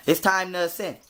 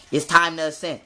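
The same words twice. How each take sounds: The two takes are said the same way.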